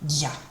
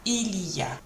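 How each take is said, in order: First: The opening 'il' is dropped, leaving 'ya'. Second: All three syllables are pronounced in full. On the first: "it sounds like ya, the il kind of gets dropped" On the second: "it doesn't sound like il y a"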